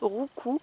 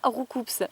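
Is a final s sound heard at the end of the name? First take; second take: no; yes. First: The name ends on a vowel, no s sound. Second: The name ends with an audible s sound. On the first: The speaker calls it right. "On prononce pas le S normalement" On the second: The speaker calls it wrong. "ça se dit pas Roucoups"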